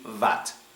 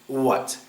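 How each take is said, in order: First: The word begins with a V sound. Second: The word begins with a W sound. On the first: The speaker calls it wrong. "a lot of Russian people will pronounce it like this. V" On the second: The speaker calls it right. "You have to learn to say w, w"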